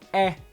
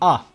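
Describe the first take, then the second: First: The vowel is said as eh. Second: The vowel is said as ah. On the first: The speaker calls it wrong. "there's no eh" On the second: The speaker calls it right. "there's ah"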